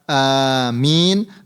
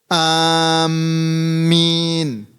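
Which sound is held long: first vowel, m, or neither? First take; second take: first vowel; m. First: The first vowel is drawn out long. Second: The m sound is doubled and held. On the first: The speaker calls it right. "dengan lafaz hamzahnya ini dipanjangkan" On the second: The speaker calls it wrong. "mentasydidkan mim"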